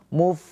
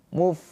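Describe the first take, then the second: Both takes have the same delivery.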